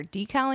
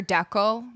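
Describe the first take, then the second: First: "decal" said DEE-kal, long ee, full second vowel; other pronunciation. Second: "decal" said DECK-ul, short e, swallowed ending; Canadian pronunciation. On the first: Streamer comparing regional pronunciations, "decal" as DEE-kal. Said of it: "than I do hear decal in Canada". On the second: Streamer comparing regional pronunciations, "decal" as DECK-ul. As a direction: say "decal" to rhyme with heckle. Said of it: "it's not decal and it's not decal". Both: Shown as a demonstration.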